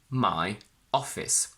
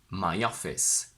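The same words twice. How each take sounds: First: The two words are said separately. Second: A small y sound links the two words. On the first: The speaker calls it wrong. "I don't separate them like that" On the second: The speaker calls it right. "I merge them together"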